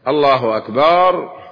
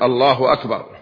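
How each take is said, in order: First: The vowel after the b is stretched long. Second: The vowel after the b is short. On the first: It means God is drums. The speaker calls it wrong. "أن يمد الألف بعد الباء" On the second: It states that God is greatest. The speaker calls it right. "فليقل الله أكبر"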